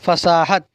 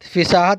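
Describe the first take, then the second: First: The first vowel is an 'a' sound. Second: The first vowel is an 'i' sound. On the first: The speaker calls it right. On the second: The speaker calls it wrong.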